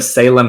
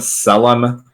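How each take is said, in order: First: The name has its usual standard pronunciation. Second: The name has an altered, nonstandard pronunciation. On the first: The speaker calls it right. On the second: The speaker calls it wrong.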